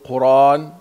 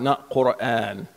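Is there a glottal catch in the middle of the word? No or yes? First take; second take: no; yes. First: The word has no glottal catch before the vowel. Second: The word has a glottal catch before the vowel. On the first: This is the reading that was used. "غير مهموس" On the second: This is not the reading that was used.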